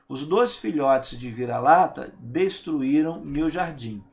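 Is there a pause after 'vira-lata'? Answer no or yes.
no. It flows with no pause after the subject. The speaker calls it right.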